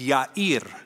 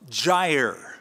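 First: The name begins with a Y sound. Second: The name begins with a J sound. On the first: The speaker calls it right. "The Hebrew pronunciation would be Yair" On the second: The speaker calls it wrong. "That's how we usually pronounce it. That is a mispronunciation"

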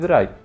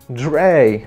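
First: The vowel sounds like 'eye' in 'dry'. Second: The vowel sounds like 'ay' in 'day'. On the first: The speaker calls it right. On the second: The speaker calls it wrong.

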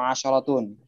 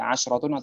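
First: The 'sh' sound is followed by an 'a'. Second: The 'sh' sound has no vowel after it. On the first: "sinnya fathah" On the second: "Pun sinnya"

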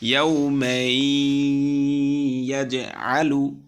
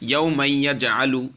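First: The words are joined with a held nasal hum. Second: The words are joined without a nasal hum. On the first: The speaker calls it right. "গুন্না দিয়ে কেমন হবে?" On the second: The speaker calls it wrong. "একালিফ গুন্না যদি না দেয় তাহলে কেমন হবে?"

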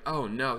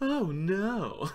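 First: It sounds like genuine, natural alarm. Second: It sounds like put-on, theatrical alarm. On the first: The speaker is truly surprised. "instead of saying like" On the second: The speaker already knew it was coming. "he was like acting"

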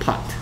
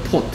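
First: The vowel is an open American 'ah' sound. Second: The vowel is a rounded British 'o' sound. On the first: "미국 사람들은 pot" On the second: "영국 사람들은 pot"

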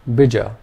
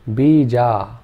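First: Both vowels are short. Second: Both vowels are long. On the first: "Both the vowel sounds are short" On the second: "If we made both the vowel sounds long"

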